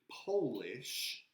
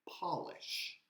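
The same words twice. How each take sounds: First: It is said as the nationality word. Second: It is said as the verb for shining. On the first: Someone is from Poland. "which would mean you are from Poland" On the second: To make something shine. "in Spanish would be to brillar"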